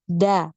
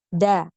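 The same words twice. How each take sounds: The two takes are said the same way.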